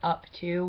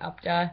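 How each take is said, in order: First: Both words are said fully with a clear t. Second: The words blur together into 'upda'. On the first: This is how people elsewhere say it. "We don't say up to" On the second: This is how local county people say it. "we say upda"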